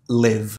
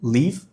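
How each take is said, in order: First: "live" with an eh-like vowel; short-i pronunciation. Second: "Live" said as "leave", tense ee; long-i pronunciation. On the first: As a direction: say "live" as "lev", pitched low. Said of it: "a letra I tem som de E". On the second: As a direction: say "Live" as "leev", pitched low. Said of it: "A letra E tem som de I". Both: Shown as a demonstration.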